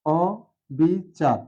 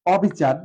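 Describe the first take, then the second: First: অবিচার stretched very slowly, open ɔ; slow model pronunciation. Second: অবিচার with an open ɔ; open o sound. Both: Shown as a demonstration. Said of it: "আবার দেখতে পারি".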